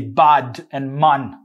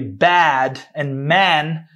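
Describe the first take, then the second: First: The vowels are said with a Jamaican accent. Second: The vowels are said with an American accent. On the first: "in Jamaican Patois, you want to say bad and man" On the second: "in American English, you say bad and man"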